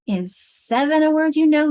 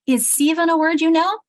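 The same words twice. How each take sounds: First: "seven" said with a long first vowel, SEE-ven; asking "seven" with the first vowel long. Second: "seven" said with a short open vowel, SEH-ven; asking "seven" with the first vowel short. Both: Shown as a demonstration. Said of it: "let's try it the other way".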